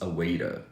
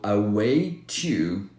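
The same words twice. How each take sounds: First: The word 'to' sounds like 'ra' with a flap. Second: The word 'to' starts with a clear T.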